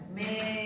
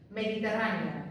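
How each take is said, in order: First: Syllable by syllable. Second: Said in the usual way. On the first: Shown as a demonstration. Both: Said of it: "dos sílabas diferentes".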